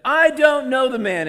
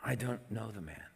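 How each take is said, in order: First: Very high, loud outburst; sworn denial. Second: Softer, measured denial; solemn promise. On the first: Peter cursing and swearing to them, shouted denial. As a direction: shout it as a furious oath. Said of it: "and he swore to them". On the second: Peter denying again with an oath, quietly insistent. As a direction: state it as a restrained oath. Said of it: "This time he's promising". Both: A narrator's reading.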